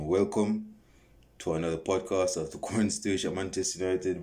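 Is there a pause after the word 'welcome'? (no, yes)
yes. There is a pause after 'welcome'. "I used to have this pause after I say welcome"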